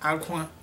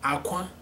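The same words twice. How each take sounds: First: It carries the tone pattern of the word cry. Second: It carries the tone pattern of the word egg. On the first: It means cry. "Aqua means cry" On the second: It means egg. "Aqua means egg"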